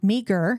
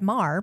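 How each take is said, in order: First: The name is said as two syllables, 'meager'. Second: The name is said as one syllable, 'mar'. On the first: This is how the spelling looks to outsiders. The speaker calls it wrong. "it will look like meager to you" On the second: This is how locals say it. The speaker calls it right. "we said Mar because we know how to say it"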